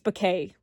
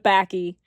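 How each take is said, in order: First: The word ends with an 'ay' sound. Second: The word ends with an 'ee' sound. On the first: The speaker calls it right. "it's bouquet, right?" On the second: The speaker calls it wrong. "I know backy's not right"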